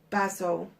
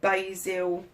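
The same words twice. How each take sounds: First: Basil is said with a non-American pronunciation. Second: Basil is said with an American pronunciation.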